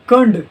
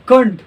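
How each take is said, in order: Both takes have the same delivery.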